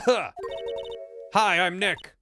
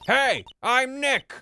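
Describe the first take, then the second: First: It is said quietly. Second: It is said loudly.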